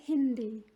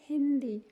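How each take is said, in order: No difference in how they are said.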